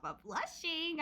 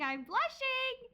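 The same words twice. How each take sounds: First: Said in the usual way. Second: High, slow, coy I'm blushing, hammed up; mock bashful. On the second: Shown as a demonstration. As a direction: play it shy and flustered, over the top.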